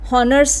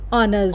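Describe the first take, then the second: First: The word begins with an audible h sound. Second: The word begins directly with a vowel sound. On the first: The speaker calls it wrong. "एच silent है, हॉनर्स नहीं होगा" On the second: The speaker calls it right. "It will be ऑनर्स"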